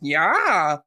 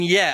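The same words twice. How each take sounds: First: It imitates the Vine kid's exaggerated yell. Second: It is said in a plain, ordinary way.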